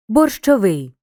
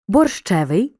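First: Борщовий with stress on final ВИЙ; stress on the ending. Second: Борщевий with stress on the middle syllable ЩЕ; stress on the suffix. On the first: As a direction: hit the last syllable, ВИЙ, in борщовий. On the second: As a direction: stress ЩЕ in Борщевий, not the ending. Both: Shown as a demonstration. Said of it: "Звертай увагу на наголос у слові".

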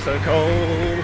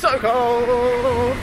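First: Raised, loud but steadier; a calmer freezing moan; freezing cold. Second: High squeaky wail, very loud; freezing cold. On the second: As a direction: yelp it out, frozen. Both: Real, not acted.

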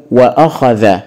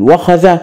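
First: "وأخذ" as "wa-akhadha", glottal stop after wa; hamza pronounced. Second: "وخذ" as "wakhadha", no glottal stop; hamza dropped. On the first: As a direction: break between wa and akh in "وأخذ". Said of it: "ننطقها بهمزة ونقول". (نطق «وأخذ» بهمزة قطع بعد الواو) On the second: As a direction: join wa directly to kh in "وخذ". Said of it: "طبعًا الكلمة بها خلل". (نطق «وخذ» بوصل الواو بالخاء دون همزة) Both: Shown as a demonstration.

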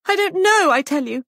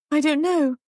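First: Very high, loud outburst; distressed cry. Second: High, helpless answer; distressed uncertainty. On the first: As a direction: cry out under pressure. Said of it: "cried Molly". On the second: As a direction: answer helplessly in a raised pitch. Shaken Molly pressed by sergeant. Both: A narrator's reading.

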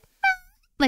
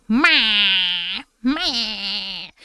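First: Very high happy little meow; happy meow imitation. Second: Nasal loud cat bleat, imitated; ugly meow imitation. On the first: Streamer imitating her cat's happy meow, very high squeak. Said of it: "it's kind of like she's like". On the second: Streamer imitating her cat's ugliest demanding meow, mock bleat. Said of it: "the ugliest meow".

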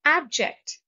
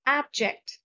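First: Abject with stress on AB, higher and louder. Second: Abject repeated, stress on AB, falling. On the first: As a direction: announce Abject, punching AB. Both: Shown as a demonstration. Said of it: "Stress is on the first syllable".

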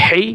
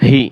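First: "হি" with a pharyngeal h; throaty Ha sound. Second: "হি" as a simple "hee"; soft ha sound. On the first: Teacher repeats the h contrast, "হি" throaty. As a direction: tighten mid-throat on "হি". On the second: Teacher repeats the h contrast, "হি" soft. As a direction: let "হি" out with an open throat. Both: Shown as a demonstration. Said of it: "একটা উচ্চারণ ও প্রায় অন্যটার সাথে মিলে যায়".

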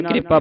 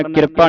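First: ਕਿਰਪਾ as quick "kripaa", k and r joined; correct reading. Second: ਕਿਰਪਾ split as "kir-paa"; vowel before the r in ਕਿਰਪਾ, "kirpaa"; mistaken reading. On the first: Teacher showing students the subjoined r, ਕਿਰਪਾ as "kripaa". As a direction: say ਕਿਰਪਾ as "kri-paa". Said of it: "ਕਿਰਪਾ ਪੜ੍ਹਨਾ". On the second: Teacher warning students of a misreading, ਕਿਰਪਾ as "kir-paa". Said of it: "ਕਿਰਪਾ ਨਹੀਂ ਪੜ੍ਹਨਾ". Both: Shown as a demonstration.

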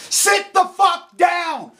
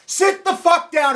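First: Sit the fuck down, dragged out slowly; each word slow and heavy, seething; slow angry order. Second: Shouted order. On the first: Ranting at anti-nukers, a slow seething command. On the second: Repeating it to critics, now shouted. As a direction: bark the word sit. Angry rant at anti-nuclear critics. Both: Real, not acted.

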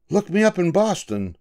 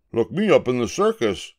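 First: High, bright-pitched stranger's farewell; high lightly voiced passenger. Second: Lightly voiced gorilla. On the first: A passenger says goodbye to Julius after the trip, pitched high. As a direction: toss it off like a cheerful traveller. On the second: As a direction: answer calmly, matter-of-fact. Julius answers passenger. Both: A narrator's reading.

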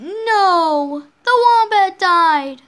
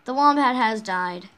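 First: Loud, higher, drawn-out mock wail; dramatic outcry. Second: Said in the usual way. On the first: Player reacting to the wombat dying, loud dramatic outcry. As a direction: cry out in hammed-up dismay. Exclaims over the dead wombat.

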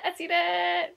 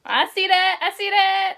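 First: Said in the usual way. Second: Loud teasing. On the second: Real, not acted. Teasing the other's face.

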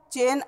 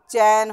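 First: चेन with a narrow "ay" vowel; wrong pronunciation. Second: चैन with an open "ai" vowel; correct pronunciation. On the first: Teacher shows the impure word, चेन with e. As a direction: say चेन like English "chain". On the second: Teacher corrects the impure word, चैन with ai. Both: Shown as a demonstration. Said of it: "अशुद्ध शब्द है".

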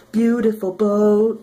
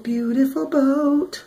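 First: Said in the usual way. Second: Higher, slow sing-song echo; a high, slow singsong repeat. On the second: Acted. Admiring the boat, repeated.

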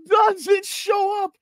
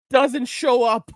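First: Gleeful shout. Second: Said in the usual way. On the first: Real, not acted. Telling viewers the cop never came to court, gleeful slow shout. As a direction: crow the punchline.

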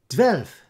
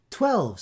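First: "Twelve" said as "tvelf", loud Dutch; Dutch echo. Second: Higher, loud tolled twelve; the bell tolling. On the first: Little watches reply "Twelve" as "tvelf", loud. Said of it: "they replied". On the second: Big bell striking twelve, loud. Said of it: "said the bell". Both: A narrator's reading.

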